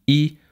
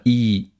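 First: "I" as a short open i, as in bitten; lax I. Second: "I" as a long close ee; tense I. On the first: Lecturer shows exactly these pairs, lax short I. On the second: Lecturer shows exactly these pairs, tense long I. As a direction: hold "I" tense. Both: Shown as a demonstration. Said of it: "gepaart mit gespannt und ungespannt".

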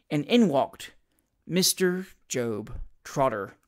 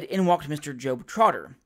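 First: Slow, portentous announcement with pauses; dramatic reveal. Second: Said in the usual way. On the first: A narrator's reading. Narrator reveals the unexpected visitor to listeners, slow dramatic reveal. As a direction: announce the name piece by piece, low and slow.

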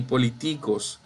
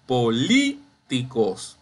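First: Poli-TÍ-cos, third syllable stressed; wrong penultimate stress. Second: Po-LÍÍ, pause, ticos; stress on LI. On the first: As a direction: say "políticos" wrongly as poliTÍcos. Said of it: "ni políticos". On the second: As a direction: slowly stretch and punch LÍ in "políticos". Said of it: "es la li". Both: Shown as a demonstration.

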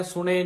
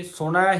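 First: ਸੁਣੇ ending in a close "e" vowel. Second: ਸੁਣੈ ending in an open "ai" vowel. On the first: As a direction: keep the last vowel of ਸੁਣੇ narrow. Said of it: "ਸੁਣੇ ਨਹੀਂ ਕਹਿਣਾ". (ਸੁਣੇ ਲਾਂ ਦੀ ਆਵਾਜ਼ ਨਾਲ) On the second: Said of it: "ਸੁਣੈ ਹੀ ਕਹਿਣਾ". (ਸੁਣੈ ਦੁਲਾਵਾਂ ਦੀ ਆਵਾਜ਼ ਨਾਲ) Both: Shown as a demonstration.

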